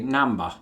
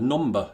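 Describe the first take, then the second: First: It is said in a South London accent. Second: It is said in the speaker's own accent. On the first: "They'd say namba" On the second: "the way I pronounce the word number. Did you hear that?"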